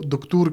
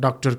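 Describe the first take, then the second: First: It is said with Arabic-style 'oo' vowels. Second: It is said with plain English vowels.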